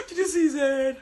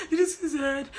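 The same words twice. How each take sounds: First: High, loud, laughing it out; laughing disbelief. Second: High, loud, half-crying question; crying disbelief. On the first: Recapping the fight for viewers, laughing loudly. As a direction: cackle the question in disbelief. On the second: Recapping the fight for viewers, mock wailing. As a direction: wail it like you can't believe it. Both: Retold or imitated. Reenacting the housemates' reaction.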